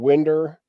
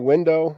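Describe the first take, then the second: First: The word ends with an 'er' sound. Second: The word ends with an 'oh' sound.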